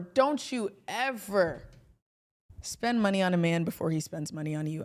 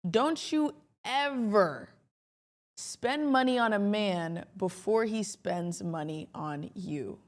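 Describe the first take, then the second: First: It is said a little too fast. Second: It is said slowly, letting it sink in.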